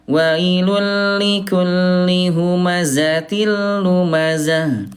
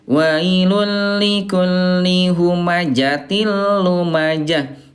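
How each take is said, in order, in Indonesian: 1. Konsonan tengah itu bunyi z. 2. Konsonan tengah itu bunyi j. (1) "Bunda pakai zai ya" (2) "bukan pakai jim"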